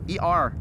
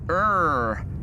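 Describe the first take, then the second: First: It is said as two separate letters. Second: It is said as a single word. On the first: "I do know how to pronounce it" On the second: "It's just my thing to say ER"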